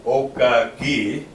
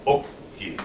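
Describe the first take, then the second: First: "okaki" with an extra "ka" in the middle; wrong pronunciation. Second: "oki" as two syllables, no vowel between k sounds; correct pronunciation. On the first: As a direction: say "okaki" as three full syllables. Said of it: "we're not gonna be saying". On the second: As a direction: close the O of "oki" on a consonant, straight into "ki". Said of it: "We're gonna be saying". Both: Shown as a demonstration.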